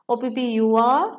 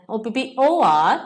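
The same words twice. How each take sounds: First: Said in the usual way. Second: Spelled out with the second ഒ punched louder; stress on second ഒ. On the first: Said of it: "ഓയ്ക്ക് പകരം U എഴുതി". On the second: Shown as a demonstration. Teacher correcting a spelling mistake, stress on second ഒ. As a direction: hit the ഒ before R as the correct letter. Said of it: "spelling എന്താണ്?".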